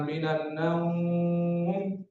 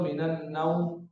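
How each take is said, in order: First: The vowel in naum is drawn out long. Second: The vowel in naum is kept short.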